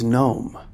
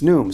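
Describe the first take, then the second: First: The vowel is an 'oh' sound, like gnome. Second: The vowel is a long 'oo' sound. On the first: The speaker calls it wrong. "So I thought it was Gnome" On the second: The speaker calls it right. "It's Noom"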